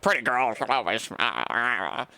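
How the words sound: It imitates the gross guy from The Substance.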